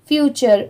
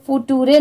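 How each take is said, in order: First: The middle consonant is a 'ch' sound. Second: The middle consonant is a plain 't' sound. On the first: The speaker calls it right. "यहाँ पर टी की sound ट की नहीं आ रही है, च की आ रही है" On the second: The speaker calls it wrong. "इसे फुटूरे नहीं पढ़ेंगे"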